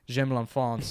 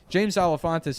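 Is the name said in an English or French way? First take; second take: French; English. First: The name is said with French pronunciation. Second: The name is said with English pronunciation.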